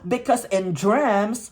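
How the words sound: It is said with a Filipino accent.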